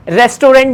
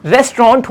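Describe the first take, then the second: First: रेस्टोरेंट spelled out in full as res-to-rent; wrong pronunciation. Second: रेस्टोरेंट said as resto-rant in two quick syllables; correct pronunciation. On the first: Teacher showing learners the common mistake, clearly said. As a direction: say रेस्टोरेंट the wrong way, every syllable. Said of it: "रेस्टोरेंट नहीं होता". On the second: Teacher showing learners the right way, clearly said. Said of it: "रेस्टोरेंट होता है". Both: Shown as a demonstration.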